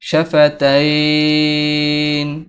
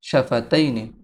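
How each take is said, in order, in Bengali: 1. শব্দটি 'n' ধ্বনিতে স্পষ্টভাবে শেষ হয়। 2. শব্দটি একটি ছোট 'i' স্বরে শেষ হয়।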